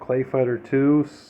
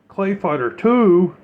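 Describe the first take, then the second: First: It is said in the speaker's ordinary voice. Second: It is said in a put-on impression voice.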